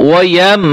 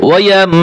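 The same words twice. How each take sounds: The two takes are said the same way.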